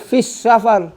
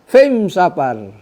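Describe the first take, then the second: First: The article is pronounced with the standard al. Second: The article sounds like an m sound. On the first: This is the standard form with the article. "Patut fis safar alif lam" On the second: This is how some Arabs say it in their dialect. "Al tak bunyi, al tak. Dia bunyi lum gitu"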